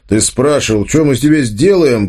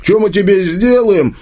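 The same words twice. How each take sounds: First: Raised voice, holding the menace back; growing threat, pitch climbing at the end; muffled angry rumble. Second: High-pitched, heated demand; angry repeated threat. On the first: Tolik answers Arsen after striking him, rumbling menace. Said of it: "глухо пророкотал Толик". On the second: Tolik attacks Arsen and repeats his threat, angrily. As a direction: throw the question back much higher, incensed. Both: A narrator's reading.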